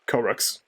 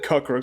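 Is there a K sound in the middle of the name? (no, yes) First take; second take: no; yes. First: The name has no extra K sound inside. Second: The name has an extra K sound inside. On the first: The speaker calls it right. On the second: The speaker calls it wrong.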